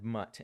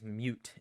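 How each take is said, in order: First: The vowel is short, rhyming with cut. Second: The vowel is long, rhyming with cute. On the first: The speaker calls it right. "instead of mutt" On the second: The speaker calls it wrong. "pronounces it as mute"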